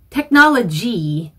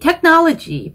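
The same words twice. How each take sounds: First: The word ends on a full ee vowel. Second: The word ends on a j consonant sound. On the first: The speaker calls it right. "끝까지 진성으로 발음을 E 하고 내주셔야 됩니다" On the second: The speaker calls it wrong. "technology라고 잘못 발음하시는 분들이 있어요. 끝 발음을 G까지만 하시면 안 되고"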